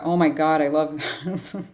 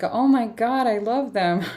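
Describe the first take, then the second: First: It sounds frustrated and exasperated. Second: It sounds happy and delighted.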